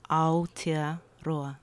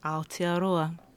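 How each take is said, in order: First: It is said slowly. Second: It is said at normal speed.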